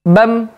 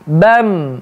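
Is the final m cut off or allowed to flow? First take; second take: Cut off; Flowing. First: The final m is cut off abruptly. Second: The final m flows on briefly. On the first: The speaker calls it wrong. "Contoh yang terputus" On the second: The speaker calls it right. "di dialirkan, dilepaskan begitu saja"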